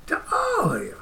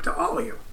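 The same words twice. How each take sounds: First: Much higher, softer "To all of you"; silly high voice. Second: Said in the usual way. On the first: Pretend. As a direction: squeak the farewell up high. Repeated farewell in silly voice.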